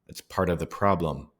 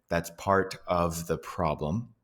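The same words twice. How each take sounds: First: The word 'of' is reduced to a schwa. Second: The word 'of' is said fully with its v sound. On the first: "You might hear" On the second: "you might not hear"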